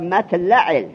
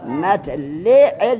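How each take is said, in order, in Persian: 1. مصوت بعد از l همان «i» است. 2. مصوت بعد از l همان «a» است. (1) "به کسر لام" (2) "به فتح لام"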